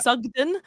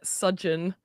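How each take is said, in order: First: The middle consonant is a hard g sound. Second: The middle consonant is a soft j-like sound. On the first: The speaker calls it right. "it's um Sugden" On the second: The speaker calls it wrong. "people pronounce it like fudge"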